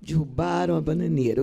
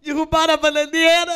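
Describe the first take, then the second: First: Subdued, sorrowful line reading; understated grief in the verse; sad recitation. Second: High, loud giggly recitation; mock-cheerful, squealed verse; reciting while laughing. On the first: Shown as a demonstration. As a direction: say it as if mourning. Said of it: "Fale com tristeza, como se sua mãe estivesse morrendo". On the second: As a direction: imitate a student grinning through a sad poem. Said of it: "Ela acaba assim".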